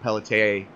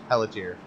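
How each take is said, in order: First: The name is given a French pronunciation. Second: The name is given an English pronunciation. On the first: The speaker calls it wrong. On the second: The speaker calls it right.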